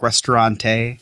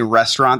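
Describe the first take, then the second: First: The word is pronounced with a fancy foreign flourish. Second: The word is pronounced the plain English way. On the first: "they're like restaurante" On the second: "Instead of saying restaurant"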